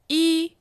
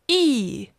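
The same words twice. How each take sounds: First: The pitch stays high and level. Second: The pitch falls sharply from high.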